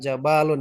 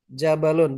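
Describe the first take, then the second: First: A vowel is drawn out long. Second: The vowels are all kept short. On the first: The speaker calls it wrong. "bukan jabalun ya" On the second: The speaker calls it right. "Di sini kan pendek semuanya ya"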